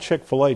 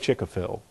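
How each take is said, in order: First: The name ends with the a sound. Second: The name puts the a sound in the middle.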